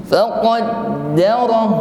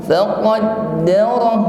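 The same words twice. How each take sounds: The two takes are said the same way.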